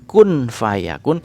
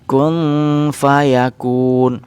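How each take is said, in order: First: The n is pronounced fully clear. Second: The n is half-hidden with a nasal hum. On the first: The speaker calls it wrong. "bukan kun fayakun" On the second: The speaker calls it right. "tapi kun fayakun"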